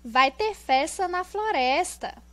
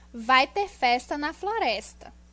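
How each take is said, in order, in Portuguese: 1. Soa como uma exclamação animada. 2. Soa como uma afirmação simples. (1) "nós temos o ponto de exclamação" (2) "nós temos o ponto final"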